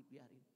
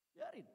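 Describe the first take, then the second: First: Muttered dismissal. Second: Bitter dismissal. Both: Retold or imitated. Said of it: "Adik saya bilang gini".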